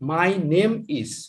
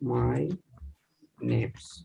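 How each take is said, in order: First: The verb is said as a separate full word. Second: The verb is reduced and joined to the noun.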